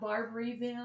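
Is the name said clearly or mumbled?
clearly. The name is said clearly and fully. The speaker is not from the area. "anyone else is like Barberville"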